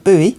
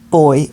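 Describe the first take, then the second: First: It is said like 'boo-ee', two syllables. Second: It is said like 'boy', one syllable.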